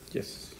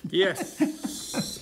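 First: It is said at normal, quieter volume. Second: It is said more loudly.

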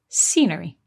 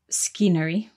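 First: The C makes no sound at the start. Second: The C is sounded at the start. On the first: The speaker calls it right. "we say scenery" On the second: The speaker calls it wrong. "we don't say scenery"

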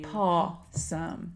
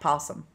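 First: The first syllable sounds like 'paw'. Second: The first syllable sounds like 'poss'. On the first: The speaker calls it right. "P-A-W. Possum" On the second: The speaker calls it wrong. "not possum"

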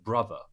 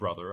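First: The word is said with a British accent. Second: The word is said with an American accent. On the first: This is how the coach says it. The speaker calls it right. "I said brother" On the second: This is how the American students say it. The speaker calls it wrong. "I didn't say brother"

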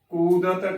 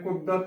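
First: The first vowel is a long u. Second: The first vowel is a short u. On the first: The speaker calls it right. "ਦੁਲੈਂਕੜ ਦੇ ਨਾਲ ਹੀ ਉਚਾਰਨ ਕਰਨਾ ਹੈ। ਕੁਦਰਤ ਕਰਨਾ ਹੈ" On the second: The speaker calls it wrong. "ਕੁਦਰਤ ਨਹੀਂ ਉਚਾਰਨ ਕਰਨਾ"

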